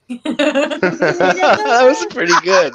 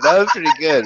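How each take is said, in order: First: Mock spooky slow voice. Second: Said in the usual way. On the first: Mimicking Kevin's slow voice.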